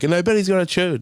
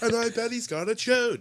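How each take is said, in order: First: Loud, raised punchline voice; mock joke tag. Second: Very high, restrained punchline voice; mock joke tag. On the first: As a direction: deliver the closing tag louder and higher. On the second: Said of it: "That's the tag I needed".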